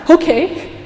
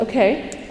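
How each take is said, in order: First: Higher, louder relieved okay. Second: Said in the usual way. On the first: Retold or imitated. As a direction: burst out with relief. Relieved boy accepts the punishment. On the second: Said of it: "and she said".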